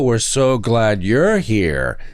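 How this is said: It is said in a mocking, sarcastic way. The speaker does not mean the welcome at all. "they call it sarcasm because"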